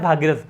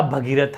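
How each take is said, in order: First: भागीरथ with long "aa" in the first syllable; common mispronunciation भागीरथ. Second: भगीरथ with short "bha" first; correct form भगीरथ. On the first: Teacher quoting what is often heard, भागीरथ with long "bhaa". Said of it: "सुनने में आता है". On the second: Teacher correcting the common form, भगीरथ with short "bha". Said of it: "जबकि होता भगीरथ है". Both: Shown as a demonstration.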